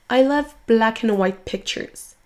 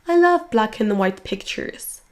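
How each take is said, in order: The two takes are said the same way.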